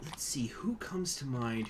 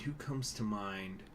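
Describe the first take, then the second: First: Slow whisper to yourself; soft whispered "who comes to mind"; whispered musing. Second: Said in the usual way. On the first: Real, not acted. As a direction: think aloud under your breath.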